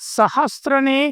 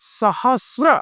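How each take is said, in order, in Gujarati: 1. r પહેલાં t નો અવાજ આવે છે. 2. r પહેલાં t નો અવાજ આવતો નથી. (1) "સાચો શબ્દ છે સહસ્ર" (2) "સાચો શબ્દ છે સહસ્ર"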